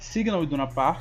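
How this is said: Signal begins with a hissing S sound. "o nome em inglês é Signal Iduna Park"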